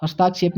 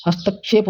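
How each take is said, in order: First: हस्ताक्षेप with a long आ, has-taa-kshep; हस्ताक्षेप the common mistake; wrong pronunciation. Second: हस्तक्षेप with short त, hast-kshep; हस्तक्षेप said correctly; correct pronunciation. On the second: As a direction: say हस्तक्षेप without a long aa. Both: Shown as a demonstration. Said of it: "हस्ताक्षेप नहीं होता".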